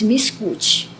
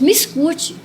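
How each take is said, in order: First: Said in the usual way. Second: Higher-pitched, firm command; more energetic. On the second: Retold or imitated. Jesus answers the weeping dreamer, more energetic. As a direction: retell an energetic call for attention. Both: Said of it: "mais enérgico".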